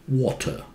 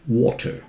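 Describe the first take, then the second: First: It is said with a British accent. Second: It is said with a British accent.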